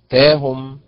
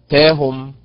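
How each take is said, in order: No difference in how they are said.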